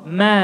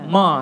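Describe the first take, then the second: First: "Ma" light and fronted, near "mae"; thin vowel. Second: "Ma" dark and backed, like "maw"; thick vowel. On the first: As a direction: say Ma with a smiling, thin a. (Ma dibaca tipis) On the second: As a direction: say Ma with a heavy, open back a. (Ma dibaca tebal) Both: Shown as a demonstration. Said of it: "Saya baca dua-duanya".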